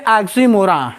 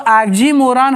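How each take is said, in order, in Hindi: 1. शब्द का अंत केवल एक धीमे न से होता है। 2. शब्द का अंत एक पूरे, साफ़ न से होता है। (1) "लेकिन हम बोलेंगे ऑक्सीमोरा" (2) "लिखा है ना ऑक्सीमोरॉन, तो ऑक्सीमोरॉन हम बोलते हैं"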